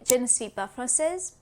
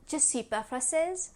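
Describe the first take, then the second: First: Every word is said fully, including ne. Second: The ne is dropped but je is said fully. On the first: The speaker is a beginner. "A beginner in French would say" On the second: The speaker is intermediate. "An intermediate in French would say"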